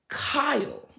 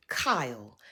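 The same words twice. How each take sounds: First: Raised, drawn-out call of the name Kyle; calling his name. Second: Kyle whispered, falling, no voice at all. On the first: Recap host calling out Kyle by name. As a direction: call out Kyle like you caught him. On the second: Recap host whispering Kyle's name in disbelief. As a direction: breathe his name like a disappointed aside. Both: Pretend.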